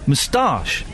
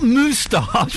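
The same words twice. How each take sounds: First: The stress is on the second syllable. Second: The stress is on the first syllable. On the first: The speaker calls it right. "the emphasis is on ta" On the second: The speaker calls it wrong. "It's not moustache"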